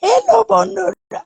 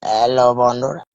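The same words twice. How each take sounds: First: Very high put-on squeaky voice; acting voice. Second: Said in the usual way. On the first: Child acting for the live stream, high squeaky greeting. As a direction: greet friends in a tiny cartoon voice. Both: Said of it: "এটাও আমি acting করতে পারি".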